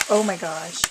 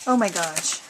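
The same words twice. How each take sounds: The two takes are said the same way.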